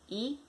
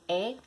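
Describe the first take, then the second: First: The vowel sounds like 'ee', as in 'see'. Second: The vowel sounds like 'eh', as in 'bed'. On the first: The speaker calls it wrong. "not E" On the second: The speaker calls it right. "you usually pronounce it E"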